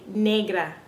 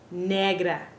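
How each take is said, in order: First: The e vowel glides like English 'day'. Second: The e vowel is a short, pure 'eh'. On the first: The speaker calls it wrong. "a lot of people say negra" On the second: The speaker calls it right. "but it's really negra"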